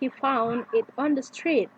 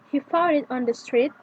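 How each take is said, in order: First: The pitch falls at the end. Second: The pitch rises at the end. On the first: It is a statement. "the voice is rolling to a lower pitch at the end" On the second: It is a declarative question. "the voice is rising to a higher pitch at the end"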